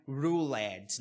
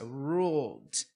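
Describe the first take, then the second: First: "ruled" com sílaba extra, rulêd; pronúncia errada. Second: "ruled" com d final, sem sílaba nova; ruled numa sílaba. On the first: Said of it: "não é ruled. Não, isso não existe". (ruled errado, com E pronunciado) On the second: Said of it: "Não é sílaba nova". (ruled, uma sílaba) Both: Shown as a demonstration.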